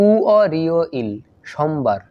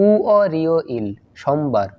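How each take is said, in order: No difference in how they are said.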